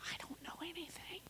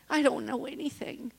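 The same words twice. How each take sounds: First: Barely audible whisper; whispered confession. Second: Said in the usual way. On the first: Real, not acted. Speaker admitting her limits after sixteen years, whispered. Hushed confession, then said again aloud.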